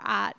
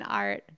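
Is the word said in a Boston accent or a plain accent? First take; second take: Boston; plain. First: It is said in a Boston accent. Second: It is said in a plain, non-Boston accent.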